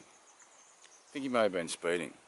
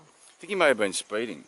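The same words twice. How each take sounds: First: Slow, knowing repeat. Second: Said in the usual way. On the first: Shown as a demonstration. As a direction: drag out the line to sell the joke.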